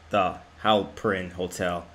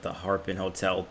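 First: The name is said as three syllables, Halperin. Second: The name is said as two syllables, Harpin. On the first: The speaker calls it right. "it's clearly pronounced the Halperin Hotel" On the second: The speaker calls it wrong. "I called it the Harpin Hotel"

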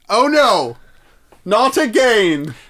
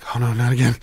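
First: It is said loudly, like an announcement. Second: It is muttered quietly under the breath.

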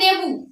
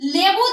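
First: The word begins with an n sound. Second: The word begins with an l sound. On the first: "লেবু থেকে অনেক সময় নেবু উচ্চারণ করে থাকে" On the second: "লেবু থেকে নেবু"

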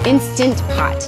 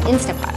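First: The full word 'Instant' is said before 'Pot'. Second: It is shortened to 'Insta' before 'pot'. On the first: The speaker calls it right. "Not an Instapot" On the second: The speaker calls it wrong. "I always call it an Instapot"

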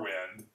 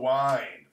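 First: The vowel is short, as in pin. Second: The vowel is long, rhyming with mind.

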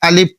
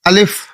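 First: The word ends with a p sound. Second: The word ends with an f sound. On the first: The speaker calls it wrong. "আলিফ শেষে পর উচ্চারণ" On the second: The speaker calls it right. "আলিফ শেষে ফ, এটার উচ্চারণ করতে হবে"

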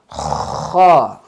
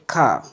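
First: It starts with a raspy throat friction. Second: It starts with a hard k stop. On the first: The speaker calls it right. "try to pronounce it as kha and not ka" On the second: The speaker calls it wrong. "don't say ka"

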